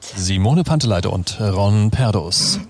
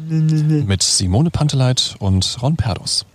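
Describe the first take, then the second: First: It sounds like a showy fairground DJ announcement. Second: It sounds like a calmer, moderate announcement.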